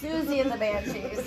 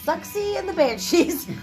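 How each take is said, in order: First: The first word is said with a 'z' sound. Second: The first word is said with a 'ks' sound. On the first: The speaker calls it right. "it's Susie and the Banshees" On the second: The speaker calls it wrong. "this one is Suxy and the Banshees"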